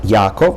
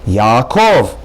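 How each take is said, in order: First: The stress falls on the first syllable. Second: The stress falls on the last syllable. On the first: The speaker calls it wrong. "not Yaakov" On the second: The speaker calls it right. "but rather Yaakov"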